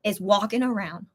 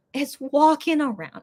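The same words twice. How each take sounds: First: Said in the usual way. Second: WALKING AROUND said higher, slowly drawn out; drawn-out emphasis. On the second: Real, not acted. Telling viewers about the spider, drawn-out stress on WALKING AROUND. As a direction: stretch "walking around" with raised pitch. Repeats it for dread effect.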